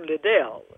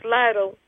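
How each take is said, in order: First: The name is pronounced like 'Liddell'. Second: The name is pronounced like 'Lytle'. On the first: This is the family's own Scottish form of the name. The speaker calls it right. "when I'm Liddell. So that's Scottish Liddell" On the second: Someone reading the name off paper got it wrong. The speaker calls it wrong. "was trying to do the pronunciation, which was inaccurate"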